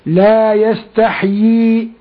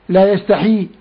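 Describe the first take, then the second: First: The h has no vowel, then two y sounds. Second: The h has an i vowel, then one y. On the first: The speaker calls it right. "فلا بد أن يسكن الحاء ويجيب بعدها ياءين" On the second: The speaker calls it wrong. "فكسر الحاء وجاب ياء واحدة، وهذا خطأ"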